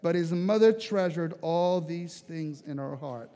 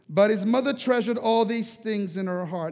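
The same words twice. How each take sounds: First: Slow, savoring reread. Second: Said in the usual way. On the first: Shown as a demonstration. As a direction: linger over "treasured" gently and slowly. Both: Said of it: "And I catch that".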